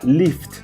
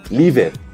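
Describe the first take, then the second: First: The ending is pronounced as a short 't' sound. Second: The ending is pronounced as a separate 'ed' syllable. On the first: The speaker calls it right. "sino sería lift" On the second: The speaker calls it wrong. "no sería lived"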